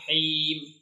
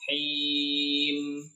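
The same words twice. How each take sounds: First: The final m stops abruptly. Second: The final m hums on briefly. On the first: The speaker calls it wrong. "jangan him" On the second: The speaker calls it right. "jangan diberhentikan, jadi alirkan sedikit"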